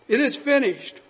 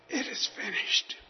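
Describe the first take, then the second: First: It is said as a strong, victorious cry. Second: It is said as a weak, dying gasp.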